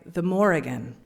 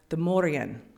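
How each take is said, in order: First: The name is said with every letter sounded. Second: The name is said with some letters silent.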